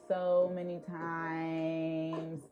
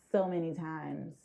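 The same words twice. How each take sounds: First: Stretched, slow "so many times"; drawn out slowly. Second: Said in the usual way. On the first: Shown as a demonstration. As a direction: drag out each "so" slowly.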